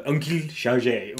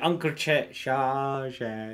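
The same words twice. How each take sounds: First: Slow, hammed-up French accent. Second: Said in the usual way. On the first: Player tries the uncle's name, mock French accent. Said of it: "Oh, that's an offensive accent". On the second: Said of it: "Is it French?".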